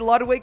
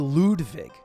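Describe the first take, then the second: First: The name is said with an English pronunciation. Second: The name is said with a German pronunciation. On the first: "I say Ludwig" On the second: "that's like the German way"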